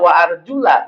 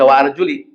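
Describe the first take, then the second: First: The word ends with an 'a' vowel. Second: The word ends with an 'i' vowel. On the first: The feet are washed, like the face and hands. "Tapi kalau Bapak baca wa arjula, berarti samanya bu bukan dengan kepala" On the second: The feet are wiped, like the head. "Kalau mau baca wa arjuli, berarti sama dengan kepala, jadi diusap"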